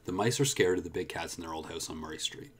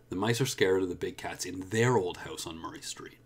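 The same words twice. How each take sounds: First: The word 'their' is unstressed. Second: The word 'their' is stressed. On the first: "I'll do it again unstressed" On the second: "Now I'm going to stress there"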